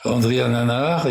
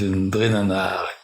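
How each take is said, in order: First: The name starts with a full vowel. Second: The name starts with an N sound. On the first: This is the highland form of the name. "Ils disent pas André Nanar" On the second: This is the Sakalava form of the name. "ils disent Ndré Nanar"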